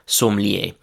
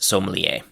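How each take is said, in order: First: It is said with a French pronunciation. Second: It is said with an English pronunciation.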